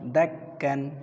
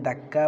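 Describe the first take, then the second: First: The word ends with a final 'n' sound. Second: The word ends on a vowel without 'n'. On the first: The reciter continues without stopping. "তানবিন দিয়ে পড়লে দাক্কান বলবেন" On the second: The reciter stops at this word. "অক্ফ করলে দাক্কা বলবেন"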